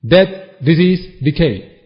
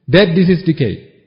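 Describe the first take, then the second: First: Slow, weighty listing of each word; slow emphatic list. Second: Said in the usual way. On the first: Shown as a demonstration. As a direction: lay down each word slowly, like a verdict.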